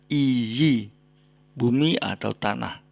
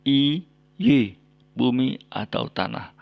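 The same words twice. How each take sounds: No difference in how they are said.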